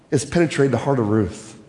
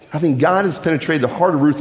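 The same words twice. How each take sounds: First: "has penetrated the heart of Ruth" dropped low and soft, each word weighed; slow emphatic line. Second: Said in the usual way. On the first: Shown as a demonstration. Preacher lets the point land on his congregation, low and weighty.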